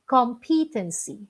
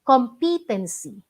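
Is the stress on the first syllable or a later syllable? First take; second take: later; later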